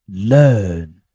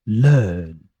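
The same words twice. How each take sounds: No difference in how they are said.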